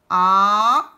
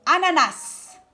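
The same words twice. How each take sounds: First: ANANAS split into A, NA, NAS with pauses; syllable by syllable. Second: Said in the usual way. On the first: Shown as a demonstration. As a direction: sound out ANANAS, loud held vowels. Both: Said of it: "Où est-ce que j'entends le A?".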